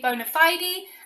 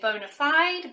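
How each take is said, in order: First: It is said with a British pronunciation. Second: It is said with an American pronunciation. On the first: "The British way is usually" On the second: "Americans typically say"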